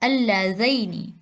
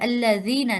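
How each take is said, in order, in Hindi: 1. बीच का स्वर 'a' से 'i' की ओर सरकता है। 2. बीच का स्वर साधारण लंबा 'ee' है। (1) "हरूफे लीन की प्रोनाउंसिएशन थोड़ी डिफरेंट है" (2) "अल्लजीना नहीं"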